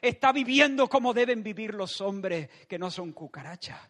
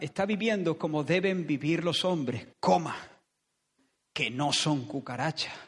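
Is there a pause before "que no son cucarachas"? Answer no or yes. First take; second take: no; yes. First: It runs on with no pause before "que". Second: There is a clear pause before "que".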